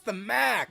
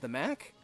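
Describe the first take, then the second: First: The vowel in Mac is drawn out. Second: The vowel in Mac is short. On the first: This names the Metro Atlantic conference. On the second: This names the Mid-American conference.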